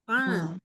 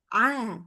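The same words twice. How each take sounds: First: The sound flows out through the nose. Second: The sound flows out through the mouth. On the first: The speaker calls it wrong. "tidak boleh dialirin ke hidung. Jadi bunyinya jadi gini" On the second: The speaker calls it right. "Tapi dia ke mulut"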